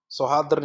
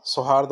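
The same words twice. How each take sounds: First: सौहार्द्र ending in 'dra'; wrong extra 'r'. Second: सौहार्द ending cleanly in 'd'; correct ending. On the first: Teacher rejecting the misspelling, सौहार्द्र with a final 'r'. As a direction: say सौहार्द्र as so-haar-dra. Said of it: "नहीं होगा". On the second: Teacher giving the right word, सौहार्द without a final 'r'. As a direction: say सौहार्द as so-haard. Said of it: "होगा". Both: Shown as a demonstration.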